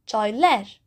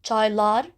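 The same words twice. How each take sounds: First: Çayler ending in "-ler"; çayler offered with a mismatched front ending; front-vowel suffix. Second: Çaylar ending in an open "-lar"; Çaylar offered with matching back vowels; back-vowel suffix. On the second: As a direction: say Çaylar with "ah" in both syllables. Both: Shown as a demonstration. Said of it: "Çaylar or ler?".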